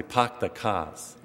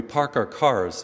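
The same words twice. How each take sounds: First: Dropped-R Boston accent, drawn out slowly; slow Boston "pahk the cahs". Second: Said in the usual way. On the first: Shown as a demonstration. Priest showing the congregation how Bostonians say it, Boston accent. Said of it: "In Boston, they".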